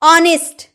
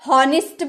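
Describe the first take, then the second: First: It begins with a vowel sound. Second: It begins with an h sound. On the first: The speaker calls it right. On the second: The speaker calls it wrong.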